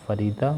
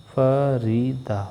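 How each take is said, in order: First: Said in the usual way. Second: फरीदा slowly, each syllable separate. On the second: Shown as a demonstration. Teacher modelling a name in syllable claps, slow beats. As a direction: clap out फरीदा, one beat per syllable. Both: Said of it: "clapping for each syllable".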